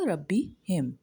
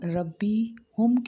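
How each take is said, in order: First: The pronoun is said with an 'i' vowel. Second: The pronoun is said with a 'u' vowel. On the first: The speaker calls it right. "ये सही उसका तलफ़्फ़ुज़ होगा" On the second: The speaker calls it wrong. "रब्बी हुम के बजाय"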